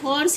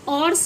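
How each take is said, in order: First: The word starts with an audible h sound. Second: The word starts with no h sound. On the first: The speaker calls it right. "इसको हम हॉर्स ही पढ़ेंगे" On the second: The speaker calls it wrong. "ऑर्स नहीं पढ़ेंगे"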